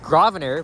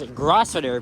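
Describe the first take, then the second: First: The word is said with no S sound. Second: The word is said with an S sound. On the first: The speaker calls it right. "the S is silent" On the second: The speaker calls it wrong. "you may think that it's pronounced"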